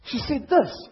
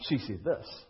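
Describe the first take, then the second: First: Loud, higher, pushing the words out; loud insistence. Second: Soft and low, knowing; quiet knowing correction. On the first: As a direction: insist on She said this. loudly and high. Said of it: "she was pretty ticked". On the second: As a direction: say She said this. quietly, lower, as the husband who knows. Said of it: "She didn't say that". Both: Shown as a demonstration.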